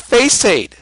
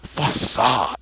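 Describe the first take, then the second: First: It is said as two syllables, 'face aid'. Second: It is said as 'fa-sahd', ending in 'sahd'. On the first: This is the speaker's own way of saying it. "I could say face aid" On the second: This is how someone else says it. "this guy says facade"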